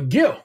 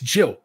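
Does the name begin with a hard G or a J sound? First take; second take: hard G; J. First: The name begins with a hard G sound. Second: The name begins with a J sound. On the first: The speaker calls it wrong. "No, it's not Gil" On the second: The speaker calls it right. "Pronounced like a J"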